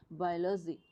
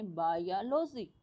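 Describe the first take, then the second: First: Said in the usual way. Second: "biology" drawn out slowly, part by part; syllables kept apart. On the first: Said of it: "ओ अलग है यहाँ और बाय अलग है". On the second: Shown as a demonstration. Teacher asking students to look carefully, slow careful "biology". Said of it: "ध्यान से देखने हैं अपने".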